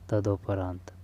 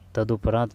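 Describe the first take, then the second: First: The second syllable has an 'o' vowel. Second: The second syllable has a 'u' vowel. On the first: The speaker calls it wrong. "तदो नहीं आएगा" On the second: The speaker calls it right. "तदु आएगा"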